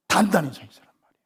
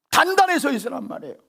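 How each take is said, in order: First: Fast, hushed whisper of the command; whispered repeat of the preached line. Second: Emphatic preaching. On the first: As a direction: drop suddenly to a whisper. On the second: Preacher proclaims the command. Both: Shown as a demonstration.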